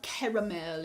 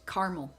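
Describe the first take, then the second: First: It is said in a non-American way. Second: It is said in a strongly American way. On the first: This is how other people say it. "It is not caramel" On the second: This is how people where the speaker lives say it. "I probably say it in the most American way possible"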